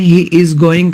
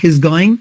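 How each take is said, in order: First: He and is are said as two full words. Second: He and is merge into one short syllable. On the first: "ही इज going का" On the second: "का हिज going"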